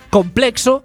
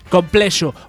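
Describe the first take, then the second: First: The x is said as a 'ks' sound. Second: The x is said as a 'sh' sound. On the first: The speaker calls it wrong. "ya que en su lugar dicen" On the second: The speaker calls it right. "si saben decir Shakira, no saben decir"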